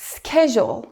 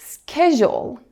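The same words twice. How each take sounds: First: It is said in an American accent. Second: It is said in an American accent.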